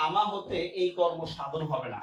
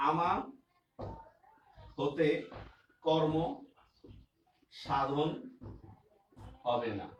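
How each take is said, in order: First: Said in the usual way. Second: আমা, হতে, কর্ম, সাধন, হবে না each separated by long pauses; word by word dictation. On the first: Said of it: "same sentence read whole". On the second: Shown as a demonstration. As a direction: spell the sentence out one word at a time. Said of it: "dictating the sentence word by word".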